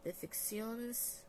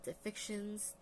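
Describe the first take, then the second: First: "deficciones" said slowly in a Spanish way, rolled out syllable by syllable; Spanish-style word. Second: Said in the usual way. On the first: Shown as a demonstration. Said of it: "I don't know why I try to say that in Spanish". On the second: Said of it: "I try to say that in Spanish".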